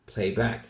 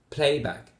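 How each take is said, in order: First: "playback" with stress on back, rising; playback, second half stressed; stress on second word. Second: "playback" with stress on play, falling; playback, first half stressed; stress on first word. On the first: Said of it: "put the stress on the second word". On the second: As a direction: hit "play" in playback, let back drop. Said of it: "stress on the first word of the compound". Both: Shown as a demonstration.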